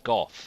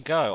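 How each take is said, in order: First: The name ends with an f sound. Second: The name ends on an open vowel. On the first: The speaker calls it right. "I would more so think it's pronounced Goff" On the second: The speaker calls it wrong. "you say go"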